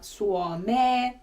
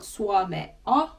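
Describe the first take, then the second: First: The word ends in a long 'e' sound. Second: The word ends in the vowels 'e-a'. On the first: It is the colloquial spoken form. "the more puhekieli way" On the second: It is the written-standard form. "would be more kirjakieli"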